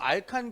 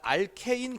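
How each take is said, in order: First: The last syllable has a plain 'a' vowel. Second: The last syllable has an 'ei' vowel. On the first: This is the older name. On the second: This is the name used today.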